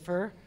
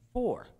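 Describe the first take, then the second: First: The vowel is an 'ur' sound, like fur. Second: The vowel is a rounded 'or' sound. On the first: The speaker calls it wrong. "everybody goes fur" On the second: The speaker calls it right. "everybody has a problem with saying four"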